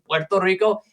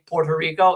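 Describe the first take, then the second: First: It is said with a Spanish pronunciation. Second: It is said with an American English pronunciation. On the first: The speaker calls it right. "the proper pronunciation" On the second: The speaker calls it wrong. "Americans say Puerto Rico"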